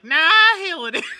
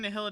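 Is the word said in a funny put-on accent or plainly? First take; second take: funny accent; plainly. First: The word is said in an odd, put-on accent. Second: The word is said in a plain, ordinary accent. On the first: "his accent's really funny" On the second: "Instead of saying nihility"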